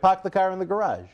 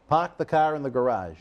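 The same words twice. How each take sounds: First: It is said with more energy and force. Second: It is said with plain, ordinary energy.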